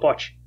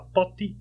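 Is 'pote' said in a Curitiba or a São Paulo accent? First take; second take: São Paulo; Curitiba. First: It is said in a São Paulo accent. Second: It is said in a Curitiba accent. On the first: The speaker is from São Paulo. "Se paulista fala pote" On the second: The speaker is from Curitiba. "Se o cara falar pote, eu sei que é curitibano"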